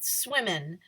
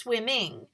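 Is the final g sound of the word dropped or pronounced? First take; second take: dropped; pronounced. First: The ending g sound is dropped. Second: The ending g sound is clearly pronounced. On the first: The speaker calls it wrong. "we're in the South, so we say fishing and swimming" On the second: The speaker calls it right. "is good articulation"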